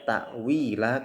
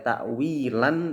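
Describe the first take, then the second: First: The word ends with a long a vowel. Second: The word ends with an n sound. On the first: The reader stops here at the end of a verse. "tapi kita bacanya ta'wila karena berada di akhir ayat" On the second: This is the full form read without stopping. "Yang seharusnya dibaca ta'wilan"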